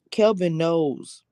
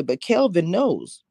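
First: Kelvin stretched slowly, falling tune on knows; slow, knowing emphasis. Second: Kelvin drawn out slow, stress on Kelvin; slow, knowing emphasis. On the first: Repeating that Kelvin knows, slow and deliberate. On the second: Stressing that Kelvin knows, slow and knowing. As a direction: lean on Kelvin, slowly, knowingly. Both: Real, not acted.

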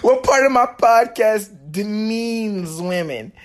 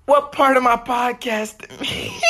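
First: Straight-faced retry. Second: Laughing. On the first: Shown as a demonstration. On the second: Real, not acted. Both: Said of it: "Can't even say that with a straight face".

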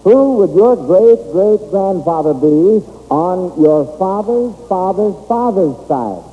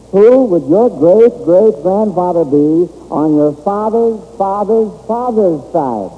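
Both takes have the same delivery.

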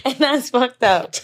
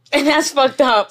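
First: Slow, deliberate repeat; slower emphatic repeat. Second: Emphatic. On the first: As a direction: drag it out for emphasis. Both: Shown as a demonstration.

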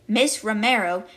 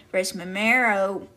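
First: Said in the usual way. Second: "Miss Romero" garbled to "Ris Memero"; slip of the tongue. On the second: Real, not acted. Reader tripping over a student's name, "Miss Romero" said as "Ris Memero". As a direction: stumble over "Miss Romero", swapping in R and M sounds. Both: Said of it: "what did I say?".

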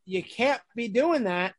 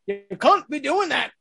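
First: Said in the usual way. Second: CAN'T said in a put-on accent with a broad "ah"; accented retelling, "can't" higher and rounded to "cahn't". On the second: Park performer retelling a line from a kids' show, put-on accent. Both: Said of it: "I said it with an accent".

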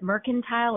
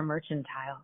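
First: "mercantile" with a hard K sound in the middle; hard-C pronunciation. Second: "merchantile" with a CH, like merchant; CH pronunciation. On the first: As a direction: say "mercantile" as MER-kun-tile. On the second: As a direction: say "merchantile" as MER-chun-tile. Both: Shown as a demonstration. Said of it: "is it mercantile or merchantile".

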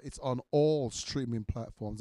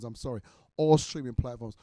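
First: Said in the usual way. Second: Firm correction. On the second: Shown as a demonstration.

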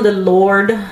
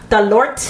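First: Said in the usual way. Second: "Lord" ending in a hard t, like "Lort"; comic pronunciation. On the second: Shown as a demonstration. Storyteller jokes about divine help, "Lord" said as "Lort". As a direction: say "Lord" with a popped final t.

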